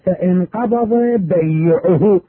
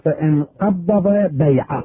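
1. الحرف في bay'ahu مشدد. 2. الحرف في qabada مشدد.

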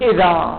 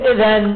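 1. تنتهي الكلمة بحرف المد الطويل الألف. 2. تنتهي الكلمة بصوت النون. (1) "هنا نقول إذا" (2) "يعني نقف عليها بالنون، لا نتلفظ بالنون، نقول إذن"

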